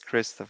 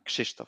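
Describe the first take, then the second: First: The name is said the plain English way. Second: The name is said with Polish 'sh'-like sounds. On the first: "basically it's the same as Christoph" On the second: "for the Poles they they tend to pronounce it in a bit different way, like sh"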